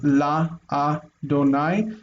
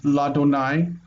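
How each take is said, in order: First: The preposition is said separately before 'Adonai'. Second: The preposition merges into 'Adonai' as one word. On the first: This is the form the normal rule would predict. "where we would expect" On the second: This is the form actually used with the divine name.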